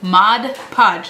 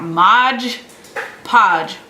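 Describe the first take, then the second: First: The first word ends in a 'd' sound. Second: The first word ends in a 'j' sound. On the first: The speaker calls it right. "it's Mod" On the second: The speaker calls it wrong. "not Modge Podge"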